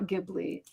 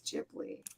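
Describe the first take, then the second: First: The word begins with a hard g sound. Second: The word begins with a j sound. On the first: The speaker calls it wrong. "it's not Ghibli" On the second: The speaker calls it right. "it's a j"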